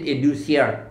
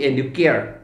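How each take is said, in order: First: The word is said the way people in Shillong say it. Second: The word is said the way people in Assam say it. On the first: This is how it is said in Shillong. "In Shillong, ... we pronounce it educiar" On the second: This is how it is said in Assam. "In Assam, they call it educare"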